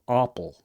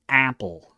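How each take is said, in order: First: The first vowel is an open 'ah' sound. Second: The first vowel is the flat English 'a'. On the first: The speaker calls it wrong. "They say apple, like a like a ah" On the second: The speaker calls it right. "standard A sound"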